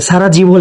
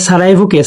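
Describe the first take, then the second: First: সারাজিভো with a hard "ji" in the middle; textbook spelling pronunciation. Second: সারায়েভোকে with a "ye" glide, no j; teacher's preferred pronunciation. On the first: Teacher quoting the textbook's spelling, সারাজিভো with a j sound. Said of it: "বইয়ে সারায়েভোকে সারাজিভো লেখা আছে". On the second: Teacher correcting the textbook name, সারায়েভোকে with a y sound. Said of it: "এখানে একটু গুলিয়ে ফেলবো না, আমি সারায়েভো". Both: Shown as a demonstration.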